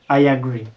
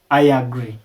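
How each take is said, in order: The two takes are said the same way.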